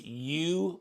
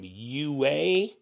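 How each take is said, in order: First: The name is said as one syllable, like 'you'. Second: The name is said as two syllables, like 'you-ah'. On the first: This is how the speaker himself said it. "I called him you" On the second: This is how another person at the table said it. "He was calling him U A"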